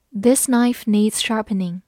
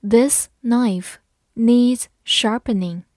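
First: Said in the usual way. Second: Slow, a little louder, word by word; slow and clear, each word apart; slow reading. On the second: Shown as a demonstration. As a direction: read it slowly for learners. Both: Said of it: "好，慢慢来读。".

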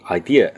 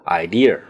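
First: Said in the usual way. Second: Idea with an extra R on the end; added R sound. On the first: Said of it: "念成". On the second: Shown as a demonstration. Host showing listeners a Chinese habit, idea with added R. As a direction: end "idea" in a curled-tongue "er", like "idear". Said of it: "很多没有R的地方加上了".

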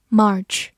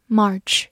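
No difference in how they are said.

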